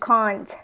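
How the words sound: The vowel sounds British, like in 'car'. This is how the learner actually said it. "but you said you can't"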